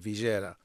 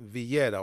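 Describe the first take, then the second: First: The word is said in an Argentine pronunciation. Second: The word is said in a non-Argentine pronunciation.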